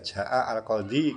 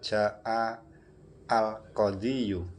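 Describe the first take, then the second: First: The word ends simply in a long i. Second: The word ends with an added -yu syllable. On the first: This is the easy, usual reading. The speaker calls it right. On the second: This is the full form, heavy to say. The speaker calls it wrong. "berat ketika melafatkan"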